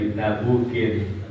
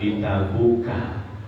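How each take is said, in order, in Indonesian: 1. Kata ini berakhir dengan bunyi -in. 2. Kata ini berakhir dengan bunyi -a pendek. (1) "boleh ditabukin" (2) "boleh dibaca dengan bitabuka"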